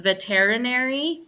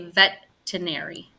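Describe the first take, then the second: First: Every written syllable is pronounced. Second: One syllable is dropped from the word. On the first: "So it's veterinary" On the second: "but we say veterinary"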